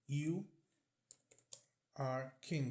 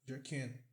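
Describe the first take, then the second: First: Both words of 'you are' are said fully. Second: 'You are' is reduced to a quick 'your'.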